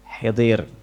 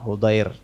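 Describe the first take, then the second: First: An i vowel follows the first h. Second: An u vowel follows the first h. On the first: The speaker calls it wrong. "bukan hidir atau hadir" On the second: The speaker calls it right. "ha yani Hudair"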